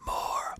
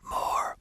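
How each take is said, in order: First: A projected whisper with constriction in the throat. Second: A projected whisper with constriction in the throat.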